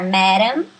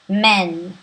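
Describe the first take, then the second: First: The word is said with two full syllables. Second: The word is said as one short syllable. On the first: The speaker calls it wrong. "a gente vai imaginar que vai se pronunciar madam" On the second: The speaker calls it right. "mas se pronuncia man"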